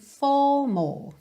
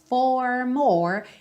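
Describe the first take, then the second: First: The R at the end is dropped. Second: The R at the end is curled. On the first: The speaker calls it right. "os R's não ficam realmente enrolados" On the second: The speaker calls it wrong. "ele não diz"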